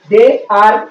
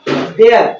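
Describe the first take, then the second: First: It is said as two separate full words. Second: It is said as one short contracted word.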